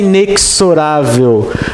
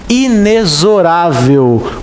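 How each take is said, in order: First: The x is not pronounced as a z. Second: The x is pronounced as a z sound. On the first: The speaker calls it wrong. "Não é inexorável" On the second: The speaker calls it right. "se pronuncia inexorável, com som de Z"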